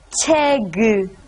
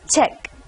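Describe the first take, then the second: First: The word is said as two syllables. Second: The word is said as one syllable. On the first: The speaker calls it wrong. "don't read it as 책. If you read it that way, that has two syllables" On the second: The speaker calls it right. "Make it only one syllable. Then it becomes 책"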